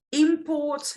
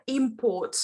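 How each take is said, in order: First: IMPORT with the weight moved onto PORT; verb stress. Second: IMPORT with the weight on IM, said slowly; slow IMport, first syllable leading; noun stress. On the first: Teacher contrasting noun and verb, import stressed on PORT. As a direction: say import as a verb, imPORT, pitched higher. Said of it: "which is a verb". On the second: Teacher contrasting noun and verb, import stressed on IM. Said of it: "which is a noun". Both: Shown as a demonstration.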